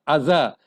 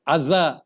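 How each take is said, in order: Both takes have the same delivery.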